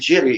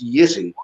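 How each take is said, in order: First: The name is pronounced the foreign, anglicized way. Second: The name is pronounced the native Czech way. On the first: The speaker calls it wrong. "It's not it's not really Jiri" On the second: The speaker calls it right. "it's Jiri"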